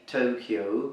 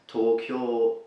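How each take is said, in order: First: It is said with an English pronunciation. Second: It is said with a Japanese pronunciation. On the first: The speaker calls it wrong. "as we pronounce it in English" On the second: The speaker calls it right. "would normally be pronounced in Japanese as Tokyo"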